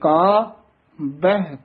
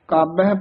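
First: A short pause comes before the second syllable. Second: The syllables run together without a pause. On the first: The speaker calls it right. "ਮੰਨੇ ਕਾ ਇੱਥੇ ਵਿਸਰਾਮ ਲਾਉਣਾ" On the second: The speaker calls it wrong. "ਕਾਬਹਿ ਪਾਠ ਨਹੀਂ ਕਰਨਾ"

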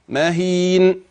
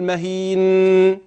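First: The final n is stopped gently with little nasality. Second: The final n has a long, clear nasal hum. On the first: The speaker calls it right. "بل سكنها بلطف" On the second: The speaker calls it wrong. "لا تقل مهين، لا"

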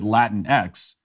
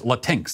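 First: It ends with the letter name 'ex'. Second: It ends in a single 'tinks' syllable. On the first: The speaker calls it wrong. "will themselves pronounce it Latin X" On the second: The speaker calls it right. "That's how you pronounce that"

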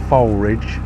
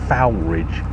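First: The name is pronounced the way locals say it. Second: The name is pronounced the way it is spelt. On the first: The speaker calls it right. "I'm reliably informed by locals, it's Foulridge" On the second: The speaker calls it wrong. "It's spelt Foulridge"

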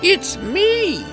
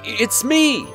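First: It is said in a put-on witch voice. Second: It is said in the prince's natural voice.

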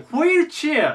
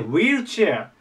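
First: The word starts with an h sound. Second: The word starts without an h sound. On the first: "ホが入って" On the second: "ホが抜けて"

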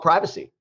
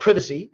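First: It is said the American way, first syllable like 'pry'. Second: It is said the British way, first syllable like 'priv'.

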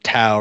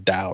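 First: The word begins with a T sound. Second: The word begins with a D sound. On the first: The speaker calls it right. "the sound of Tao" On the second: The speaker calls it wrong. "rather than Dao"

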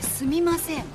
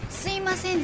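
First: The second syllable is a full 'mi' sound. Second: The second syllable is a plain 'i' sound. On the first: The speaker calls it right. "じゃなくてすみません" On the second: The speaker calls it wrong. "すいませんじゃなくて"

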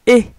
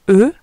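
First: The vowel is a closed, tense 'ay' sound. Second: The vowel is a neutral, relaxed 'uh' sound. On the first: The letter has an accent mark. "quand on voit un accent, on dit E" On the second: The letter has no accent mark. "Au lieu de dire E"

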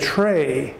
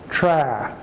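First: The vowel is a long a sound. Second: The vowel is a short a sound. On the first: The speaker calls it wrong. "if it were a long vowel sound, we'd say tray" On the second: The speaker calls it right. "the A sound is a short vowel sound"

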